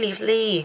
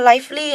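First: The first vowel sounds like 'it'. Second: The first vowel sounds like 'eye'. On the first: The speaker calls it wrong. "ไม่ใช่" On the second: The speaker calls it right. "อันนี้อ่านว่า"

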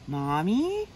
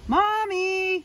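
First: It is said very quietly. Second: It is said a little louder.

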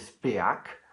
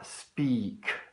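First: The vowel is not a long ee sound. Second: The vowel is a long ee sound. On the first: The speaker calls it wrong. "non è speak" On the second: The speaker calls it right. "ma speak"

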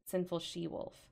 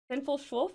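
First: The second part is said as two syllables. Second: The second part is squeezed into one syllable. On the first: The speaker calls it right. "thank you for correcting it" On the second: The speaker calls it wrong. "I don't know how I say this"

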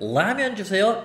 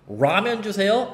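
First: The first sound is an English L. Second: The first sound is an English R. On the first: "L 발음" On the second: "R 발음"

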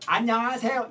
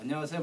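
First: It is articulated openly with the jaw moving. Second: It is mumbled with the mouth barely opening. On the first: The speaker calls it right. "턱을 움직인다 생각해" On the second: The speaker calls it wrong. "마치 복화술처럼"

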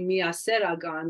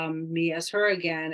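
First: The phrase is said fast, run together. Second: The phrase is said slowly, word by word. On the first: It sounds like an Armenian phrase. "if you say it fast enough" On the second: It sounds like an English sentence. "if you break it down phonetically in English"

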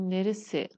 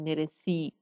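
First: The final vowel is closed, close to e. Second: The final vowel is a full, clear i. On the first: The speaker calls it right. "یه مقدار بسته تلفظ میشه، میگیم نرسه" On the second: The speaker calls it wrong. "نمیگیم نرسی"

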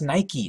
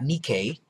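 First: Nike is said with its modern pronunciation. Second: Nike is said with its ancient Greek pronunciation. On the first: The speaker calls it right. "It's pronounced Nike" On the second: The speaker calls it wrong. "not Nike, even though that was how it was pronounced by the ancient Greeks"

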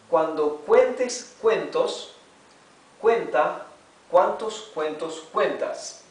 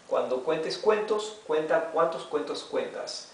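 First: It is read aloud slowly and carefully. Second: It is read aloud at normal, fast speed. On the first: "vamos a leer en voz alta y despacio" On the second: "lo leeremos en velocidad normal"

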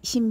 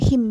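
First: The word begins with an s sound. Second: The word begins with an h sound.

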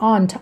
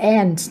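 First: It is said with a British accent. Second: It is said with an American accent. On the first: "แล้วแต่สำเนียงคนเป็นแบบอังกฤษหน่อยก็" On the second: "เป็นอเมริกันบางคนก็"

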